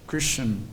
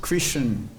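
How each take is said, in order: The two takes are said the same way.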